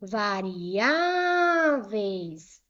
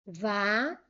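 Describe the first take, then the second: First: "Variáveis" with Á stretched very long; stressed Á. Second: Syllable by syllable. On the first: Teacher showing the strongest syllable, Á in "Variáveis" drawn out. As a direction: hold the stressed vowel, vari-ÁÁÁ-veis. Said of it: "A penúltima é a mais forte". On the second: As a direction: pause after each syllable of "Variáveis". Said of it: "Vou separar em sílabas". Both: Shown as a demonstration.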